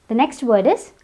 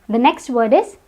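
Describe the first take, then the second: The two takes are said the same way.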